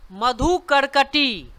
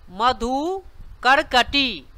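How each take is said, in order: First: Said in the usual way. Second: मधुकरकटी drawn out slowly, syllable by syllable; slow repeat. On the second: Shown as a demonstration. Teacher repeats मधुकरकटी slowly so students can copy. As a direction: stretch मधुकरकटी so learners catch each part. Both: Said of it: "धीरे धीरे बोलें".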